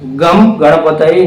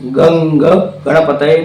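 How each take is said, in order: First: The first word ends with an 'm' sound. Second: The first word ends with an 'ng' sound. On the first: The speaker calls it wrong. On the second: The speaker calls it right.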